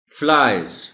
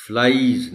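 First: फ्लाइज said as flize, clear and loud; teacher models फ्लाइज for pupils; correct pronunciation. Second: फ्लाइज said as the mistake to avoid, stressed; mock the wrong फ्लाइज; warning pupils off the wrong फ्लाइज; wrong pronunciation. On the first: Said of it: "कि फ्लाइज कहना है". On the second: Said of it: "नहीं कहना।". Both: Shown as a demonstration.

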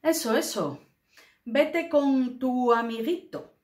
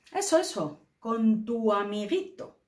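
First: Resentful, mocking delivery; scornful tone. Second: Mocking, resentful intonation; scornful tone. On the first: Teacher acts out a jealous put-down, mocking and scornful. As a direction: sneer at the little friend. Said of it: "lo captaréis por la entonación". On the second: Shown as a demonstration. Teacher demonstrates the scornful tone, mocking and resentful. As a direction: spit out amiguito with contempt. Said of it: "lo entonamos así".

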